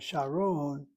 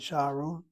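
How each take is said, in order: First: The stress is on the last syllable. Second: The stress is on the first syllable. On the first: The speaker calls it right. "I'm hitting the last syllable" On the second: The speaker calls it wrong. "I'm not saying Sharon"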